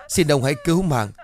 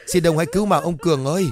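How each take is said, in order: First: Raised, pleading cry for mercy; crying plea. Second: Higher, fast, desperate wailing plea; frantic crying plea. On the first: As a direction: beg with a tearful cry. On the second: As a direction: beg faster and more desperately, voice rising. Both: Acted. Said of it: "tiếng khóc vang lên".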